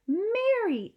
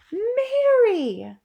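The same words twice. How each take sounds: First: Much higher worried call; the queen, concerned. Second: Much higher, louder sharp cry of the name; sharp call. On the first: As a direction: call her maid's name in concern. Queen notices the maid pale. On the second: Queen as the maid drops the tray, sharp. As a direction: snap the name to catch her. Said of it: "rather sharply". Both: Acted.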